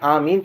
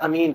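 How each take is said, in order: First: The first vowel is drawn out long. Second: The first vowel is short and clipped. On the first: "एक तरीके में उसमें मद है" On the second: "दूसरे में उस पर मद नहीं है"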